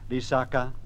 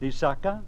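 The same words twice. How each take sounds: First: All three syllables are on a low tone. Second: Two low syllables are followed by one high. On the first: It means a marsh or a wet place. "if I were to say in three low tones" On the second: It means a promise. "with two low and one high tone"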